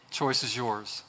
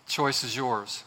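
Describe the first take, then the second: No difference in how they are said.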